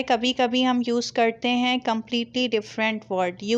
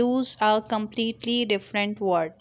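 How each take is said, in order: First: Said in the usual way. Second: Slow emphatic repeat. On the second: Shown as a demonstration.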